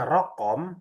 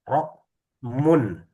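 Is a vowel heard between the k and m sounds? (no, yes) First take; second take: yes; no. First: A vowel is heard between k and m. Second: No vowel is heard between k and m. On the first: This is the everyday spoken form. "kalau pembacaan Rokom itu Amiyah" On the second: This is the standard formal form. "Yang fusah fusah adalah Rokmun"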